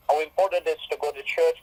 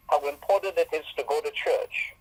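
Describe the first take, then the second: First: Rattles off the phrase faster; faster repeat. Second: Said in the usual way. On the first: Shown as a demonstration. Preacher repeating church slogan to congregation, faster. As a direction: hurry through it like a slogan.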